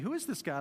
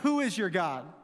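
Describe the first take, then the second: First: It sounds like a sincere, curious question. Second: It sounds like a scornful, defiant challenge.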